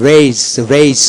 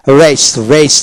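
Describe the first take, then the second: No difference in how they are said.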